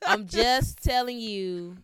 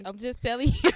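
First: Slow, loud, laughing through it. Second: Loud, laughing insistence; insistent. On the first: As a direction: drag it out while laughing. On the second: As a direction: laugh while you insist. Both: Real, not acted. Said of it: "this is so nasty".

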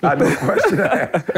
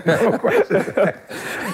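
First: Said in the usual way. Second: Drawn out slowly through laughter; slow laughing repeat. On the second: Shown as a demonstration. Repeating his line to the hosts, slow and laughing. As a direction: savor each word while laughing.

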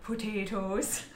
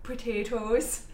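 First: Slow, drawn-out hobbit potatoes; Samwise voice. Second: Slow, drawn-out Po-tay-toes; Samwise voice. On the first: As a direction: stretch it out like Samwise. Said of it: "I'm saying it that way 'cause of Samwise". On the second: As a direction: say it like Samwise from Lord of the Rings. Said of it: "I was saying it like that 'cause of Samwise". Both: Retold or imitated.

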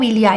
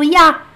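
First: "iliá" in three syllables with the L; L pronunciado. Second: "iá" in one loud glide, no L; L omitido. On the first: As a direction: sound the L clearly in "iliá". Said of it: "eles não falam iliá". ("iliá" com L) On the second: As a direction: shorten il y a to "iá". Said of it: "eles falam iá". ("iá" sem L) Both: Shown as a demonstration.

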